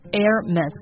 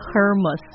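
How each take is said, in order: First: The h at the start is silent. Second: The h at the start is pronounced. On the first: The speaker calls it right. "正确的发音应该是 Hermes，不要把那个 H 发出来了" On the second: The speaker calls it wrong. "不是 Hermes，不是这样的哦"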